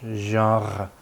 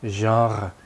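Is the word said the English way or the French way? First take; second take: French; French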